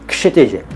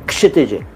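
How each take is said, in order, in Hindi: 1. नाम की शुरुआत साफ़ 'k' ध्वनि से होती है। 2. नाम की शुरुआत साफ़ 'k' ध्वनि से होती है।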